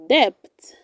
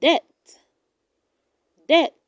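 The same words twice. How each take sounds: First: Debt with a sounded b, "debt" as "dept"; wrong pronunciation. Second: Debt said as "det"; correct pronunciation. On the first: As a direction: pronounce the b in debt. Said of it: "Do not say". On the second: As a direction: keep the b in debt silent. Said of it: "It is pronounced". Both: Shown as a demonstration.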